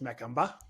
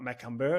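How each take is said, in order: First: The last syllable ends with an open 'ah'. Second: The last syllable ends with an r-coloured 'er'.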